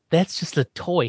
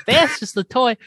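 First: Said in the usual way. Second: High, punched-up dismissal; emphatic retelling. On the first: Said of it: "And he says". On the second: Retold or imitated. Eddie grabs it from Herman to correct him, emphatic. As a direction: pitch it up as you grab the toy. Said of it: "He grabs it. He goes".

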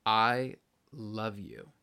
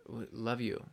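First: Drawn out, sweet I love you; slow tender I love you. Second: Said in the usual way. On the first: Acted. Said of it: "I hate you".

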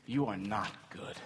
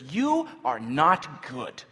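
First: Low, soft reproach; subdued accusation. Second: Loud, slow accusation; acted yelling. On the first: Acted. Sufferer accusing God in pain, subdued accusation. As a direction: say it quietly, without force. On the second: Traveler turning on servant girl, acted yelling. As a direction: spell out the condemnation slowly, with force. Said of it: "begins to yell at her".

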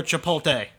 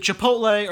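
First: "Chipotle" said chi-pol-TAY, L before the T; alternative pronunciation. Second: "Chipotle" said chi-POHT-lay, L after the T; pronunciation check. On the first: Friend offering the other option, "Chipotle" as chi-pol-TAY. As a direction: say "Chipotle" with the L moved forward, ending in tay. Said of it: "Is it Chipotle or Chipotle?". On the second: Friend checking the name, "Chipotle" as chi-POHT-lay. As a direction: say "Chipotle" with its L in the last syllable. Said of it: "I think there's an L". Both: Shown as a demonstration.

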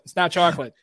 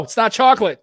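First: Said in the usual way. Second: Mock disgust. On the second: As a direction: act out tasting a stain and recoiling. Pretend stain taste test.

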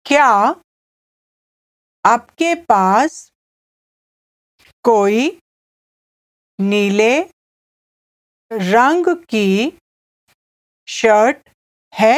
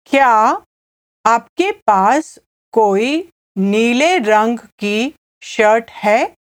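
First: Broken into small pieces with long pauses; slow repeat. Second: Said in the usual way. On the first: Shown as a demonstration. Teacher has listener repeat the buyer's question, slowly. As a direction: dictate it slowly for learners to echo. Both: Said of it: "I'll say it again slowly".

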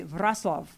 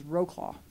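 First: Wrocław said roughly as "VROTS-wahf"; local Polish pronunciation. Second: Wrocław read naively as English, "ROH-claw"; botched text-to-speech reading of "Wrocław", as "roh-claw"; computer's mispronunciation. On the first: Shown as a demonstration. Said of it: "But they would say". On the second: Retold or imitated. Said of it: "which my computer says".

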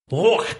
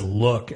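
First: Scottish look. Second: Said in the usual way. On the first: Shown as a demonstration. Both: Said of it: "it's just L U K E".

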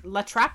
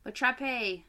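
First: La Trappe said as in English, rising; questioning La Trappe. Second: "La Trappe" ending in an extra "ay" sound; La Trappe with final e. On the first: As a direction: try "La Trappe" unsure, tune up. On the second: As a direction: say "La Trappe" as lah trap-ay. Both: Shown as a demonstration. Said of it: "There's no accent on the E".

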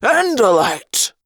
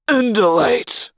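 First: Alien bellow. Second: Bellowed. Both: Acted. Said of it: "a Hork-Bajir voice bellowed".

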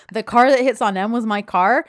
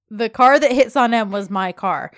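First: Louder mocking echo, rising into a question; incredulous sarcastic repeat. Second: Loud mocking echo, falling at the end; sarcastic repeat. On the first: [name] repeats Yeet's sentence as a question, sarcastic. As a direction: parrot it back loudly, questioning it at the end. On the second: [name] repeats Yeet's own sentence back, sarcastic. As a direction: parrot it back loudly as a statement. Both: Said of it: "[name] repeats back to him".

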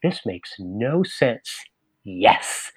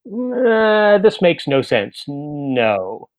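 First: Slow, softer, charmed reading; delighted yes. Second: Flat, unimpressed rejection; dismissive. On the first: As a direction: relish the nonsense and accept it. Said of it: "she'll say". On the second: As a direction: read the invitation and dismiss it. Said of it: "I'll read it and I'll say". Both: Retold or imitated.

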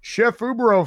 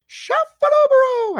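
First: Said in the usual way. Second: High falsetto, slow and loud. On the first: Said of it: "I gotta do his right". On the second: Shown as a demonstration. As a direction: sing out the name in a high falsetto. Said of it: "I always say it like that".

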